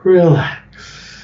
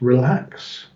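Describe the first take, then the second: First: It is said more slowly. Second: It is said at the fastest pace.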